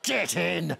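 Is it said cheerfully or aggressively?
aggressively. It is said with aggression and menace.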